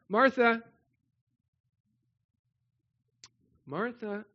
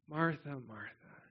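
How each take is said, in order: First: It is said insistently, to get attention. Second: It is said tenderly, with endearment.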